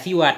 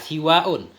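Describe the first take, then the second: First: The word ends in a short vowel without glottal stop. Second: The vowel is long and followed by a glottal stop. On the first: "kita baca siwa tanpa hamzah" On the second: "siwa ini kita tambah hamzah"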